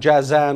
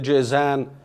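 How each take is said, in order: First: The first vowel is a long 'aa' sound. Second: The first vowel is a long 'ee' sound. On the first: The speaker calls it right. "والصحيح أنه جازان" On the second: The speaker calls it wrong. "بعض العوام ينطقونه جيزان، لكن هذا خطأ"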